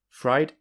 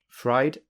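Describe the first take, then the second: Both takes have the same delivery.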